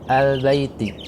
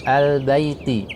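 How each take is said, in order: Both takes have the same delivery.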